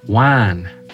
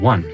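First: The vowel is an open 'a' sound. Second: The vowel is the usual 'uh' sound. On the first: This is how people in one local area say it. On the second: This is how most people say it.

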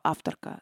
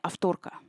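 First: The stress is on the first syllable. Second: The stress is on the second syllable.

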